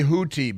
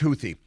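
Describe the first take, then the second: First: The middle consonant is a plain t sound. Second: The middle consonant is a th sound. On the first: This is how others say the name. "Some people say Houthi" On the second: This is how the name is said in English. "in English, T H makes a th sound"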